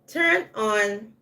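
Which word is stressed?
turn. The stress falls on the first word. To betray or attack someone. "The stress is on the turn, and then we relax when we say on"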